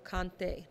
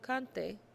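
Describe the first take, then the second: First: The stress is on the last syllable. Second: The stress is on the first syllable. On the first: The speaker calls it right. "You have to put the emphasis on the accented syllable" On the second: The speaker calls it wrong. "not yo cante"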